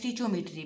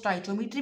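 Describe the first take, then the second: First: The word begins with a 'stich' sound. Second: The word begins with a 'stoy' sound. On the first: "and स्टिचोमेट्री भी" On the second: "आप इसको स्टोइचोमेट्री भी pronounce कर सकते हो"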